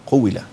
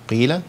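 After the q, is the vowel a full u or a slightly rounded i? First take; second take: full u; rounded i. First: The q takes a full rounded u vowel. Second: The i vowel has only a slight rounding. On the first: The speaker calls it wrong. "ضميت القاف وزودت واو قوي" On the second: The speaker calls it right. "إشمام قبل الحرف زي هنا كده"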